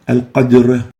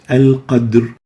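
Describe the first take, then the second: First: The r after the d also gets a bounce. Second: Only the d bounces; the r is plain. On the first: The speaker calls it wrong. "is wrong" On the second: The speaker calls it right. "the right way of saying it"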